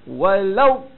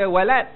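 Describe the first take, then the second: First: The final consonant is heavy, with puffed cheeks. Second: The final consonant is a plain, light d. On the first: The speaker calls it right. "bagi mulut tu kembung" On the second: The speaker calls it wrong. "jangan baca walad"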